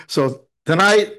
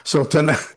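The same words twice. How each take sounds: First: Slow restart of "so tonight" through a laugh. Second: Said in the usual way. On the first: Real, not acted. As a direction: chuckle and start over slowly. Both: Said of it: "No, I'm only kidding".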